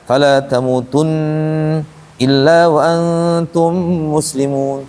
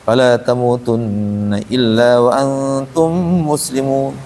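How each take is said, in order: First: It is broken up with a pause partway through. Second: It is said straight through without any pause.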